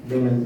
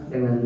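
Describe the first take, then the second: The two takes are said the same way.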